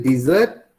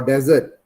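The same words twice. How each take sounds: First: Desert with a long ee in the first syllable; desert as DEE-zert. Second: Desert with a short e in the first syllable; desert as DEZ-ert. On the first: Teacher asking student which reading is right, desert as DEE-zert. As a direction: say desert as DEE-zert, offered as one option. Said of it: "or desert?". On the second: Teacher offering student the other reading, desert as DEZ-ert. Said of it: "Is it desert". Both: Shown as a demonstration.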